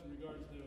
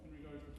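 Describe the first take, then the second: No difference in how they are said.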